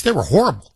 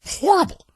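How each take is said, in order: First: Said in the usual way. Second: "Horrible" leaps much higher; high exclaim. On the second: Real, not acted. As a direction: cry "Horrible" out far higher. Emphatic repeat of horrible.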